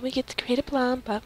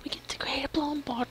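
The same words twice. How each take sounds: First: Said in the usual way. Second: Excited little whisper. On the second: Real, not acted. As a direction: whisper it to yourself. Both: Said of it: "I'm so weird when I'm excited".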